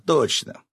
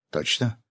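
First: "точно" starting high, falling at the end; emphatic confirmation. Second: "Точно?" with rising pitch at the end; questioning. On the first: Fisherman agreeing to be shaved, emphatic falling "точно". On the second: Friend checking the fisherman's consent, questioning "Точно?". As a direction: ask "Точно?" as a check, tune going up. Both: A narrator's reading.

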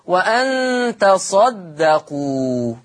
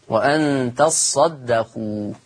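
First: وأن تصدقوا drawn out slowly with the صاد said single and light; light sad. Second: وأن تصدقوا slow, the صاد pressed and doubled; doubled sad. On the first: Teacher shows students the Hafs reading, slow with a light sad. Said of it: "بتخفيف الصاد". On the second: Teacher shows students the Warsh reading with a doubled sad. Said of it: "تشديد". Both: Shown as a demonstration.

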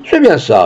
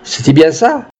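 First: "C'est bien ça" falling as a statement; confirming fall. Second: "C'est-il bien ça" rising to a question on "ça"; questioning rise. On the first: Companion answers the witness, "C'est bien ça" with a confirming fall. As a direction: confirm it, letting "ça" drop. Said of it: "répondit Rousseau". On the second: Peasant asks companion to confirm, "ça" rising as a question. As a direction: ask for confirmation, lifting "ça" at the end. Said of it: "il demanda". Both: A narrator's reading.

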